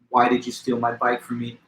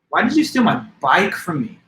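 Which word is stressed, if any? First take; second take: none; bike. First: It is flat with no word stressed. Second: The word bike is stressed. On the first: "in a straight monotone with no variation" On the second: "Now I place the emphasis on what word? Bike"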